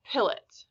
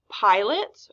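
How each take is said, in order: First: "pilot" with a short I, PILL-ot. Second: "pilot" with a long I, PIE-lot. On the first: Teacher offering the short-vowel option to the class, slow and clear. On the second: Teacher offering the long-vowel option to the class, slow and clear. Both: Shown as a demonstration. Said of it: "pilot or pilot".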